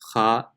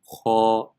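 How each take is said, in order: First: The sound is thin, with an unrounded mouth. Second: The sound is heavy, with a rounded mouth. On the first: The speaker calls it wrong. "empty mouth will be pronounced kha" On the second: The speaker calls it right. "but full mouth is kho"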